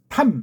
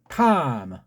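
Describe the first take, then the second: First: The word ends the way Korean words end. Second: The word does not end the Korean way. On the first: The speaker calls it wrong. "우리 같이 탐 이렇게 끝나는 거 아니고" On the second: The speaker calls it right. "아니고 탐"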